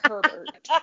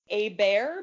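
First: The name is said with an English pronunciation. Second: The name is said with a French pronunciation. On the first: "it's spelled Herbert. So I'm going to call him Herbert" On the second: "because it's French"

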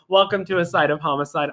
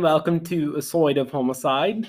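First: It is said in the speaker's natural accent. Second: It is said in a mixed British-Australian accent.

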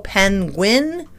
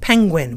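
First: The first syllable has no ng sound. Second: The first syllable ends in an ng sound. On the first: The speaker calls it wrong. "We don't go penguin" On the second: The speaker calls it right. "We pronounce it penguin"

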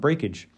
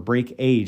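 First: The ending sounds like a short 'ij'. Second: The ending sounds like the word 'age'. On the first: It is read as one ordinary word. "it's just easier to say Breakage" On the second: It is read as two separate words. "I believe is how they pronounce it here"

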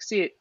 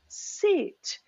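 First: It is said in a disengaged, flat way. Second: It is said in an engaged, warm way.

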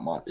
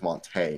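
First: The name ends with an 'ee' vowel. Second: The name ends with an 'ay'-like vowel. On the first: The speaker calls it wrong. "not Monty" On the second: The speaker calls it right. "that makes it more of an A sound"

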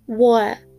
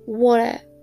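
First: The middle t becomes a glottal stop. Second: The same.

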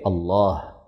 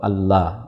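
First: The final h sound is clearly heard. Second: The final h sound is dropped. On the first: The speaker calls it right. "Jadi wajib diperjelas haknya sehingga menjadi Allah" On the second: The speaker calls it wrong. "Tidak boleh kemudian seseorang membaca Allah"

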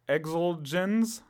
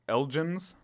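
First: The name begins with an 'eks' sound. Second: The name begins with an 'el' sound. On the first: "If so, it's Exelgens" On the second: "Without it is Elgens"

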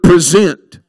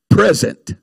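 First: The stress is on the second syllable. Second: The stress is on the first syllable. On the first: To offer or bring someone before another. "I want to focus on that word present" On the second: A gift. "you could also pronounce that word present, a gift"

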